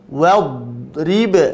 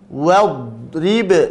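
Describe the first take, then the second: First: The r is followed by an i vowel. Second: The r is followed by an i vowel.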